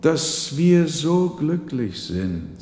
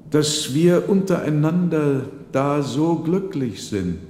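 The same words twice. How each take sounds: First: Slow, higher, stress on wir; slow emphatic repeat. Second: Put-on raised, somewhat higher old man's voice; an old father praising his family's happiness; old man voiced a little higher and louder; old father's voice. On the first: Acted. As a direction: lean on wir and draw it out. Old man repeats, stressing wir. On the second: Old man speaks at family table.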